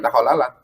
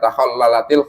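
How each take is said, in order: First: The final t is silent without a vowel. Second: The final t carries an i vowel, linking on. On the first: The word is read on its own. "kalau kita satu-satu" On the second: The word is read joined to the next word. "itu kan kasroh kalau kita baca sambung"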